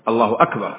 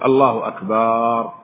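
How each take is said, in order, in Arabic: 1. الحركة التي قبل الراء الأخيرة قصيرة. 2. الحركة التي قبل الراء الأخيرة ممدودة. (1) "بل يقول الله أكبر" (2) "هذا لفظ كفري"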